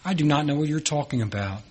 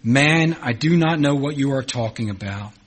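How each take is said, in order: First: Softer, brisk brush-off running into "you're talking about"; quick dismissive denial. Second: Firm, fully spelled-out "you are talking about"; emphatic denial. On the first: Peter brushing off his accuser, quick dismissive denial. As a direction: toss the denial off quickly and quietly. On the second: Peter denying to a man that he knows Jesus, emphatic denial. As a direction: deny it word by word, opening hard on "man". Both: Acted.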